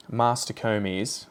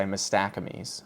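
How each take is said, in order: First: "Mastocomes" as mas-tuh-KOO-meez; full first vowel and late stress in "Mastocomes"; their pronunciation. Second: "Mastacomys" as muh-STACK-uh-meez; weak first vowel and early stress in "Mastacomys"; own pronunciation. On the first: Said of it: "was the way they used to pronounce it". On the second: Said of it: "I'd say Mastacomys". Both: Shown as a demonstration.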